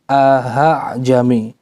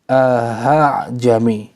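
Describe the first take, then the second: No difference in how they are said.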